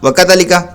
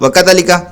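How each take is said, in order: First: The vowel after 'dh' is cut short. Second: The vowel after 'dh' is cut short.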